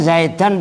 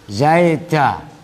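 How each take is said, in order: First: The word ends with a short vowel and n. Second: The word ends with a long vowel, no n. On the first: This is the full form inside a sentence. "Asalnya zaidan begini" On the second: This is the form used when pausing. "Tanwinnya hilang, da. Dan menjadi da, dibaca panjang"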